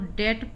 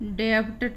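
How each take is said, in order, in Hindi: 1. b ध्वनि silent है। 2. b ध्वनि का उच्चारण होता है। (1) "इसको डेट पढ़ते हैं" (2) "डेब्ट नहीं पढ़ेंगे"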